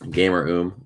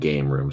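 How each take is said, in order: First: It is split as gamer plus oom. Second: It is split as game plus room. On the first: The speaker calls it right. "I'm assuming you mean it's Gamer Oom" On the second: The speaker calls it wrong. "I was saying Game Room"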